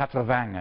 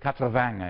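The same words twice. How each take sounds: First: It is spoken with a Southern French accent. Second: The same.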